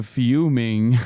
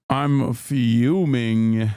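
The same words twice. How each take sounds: First: A touch louder, ironic fuming; mock fuming. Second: Very slow, drawn-out fuming through a laugh; laughing mock fury. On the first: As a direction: punch the word as a joke. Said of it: "I'm, uh, fuming". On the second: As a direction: laugh while faking rage.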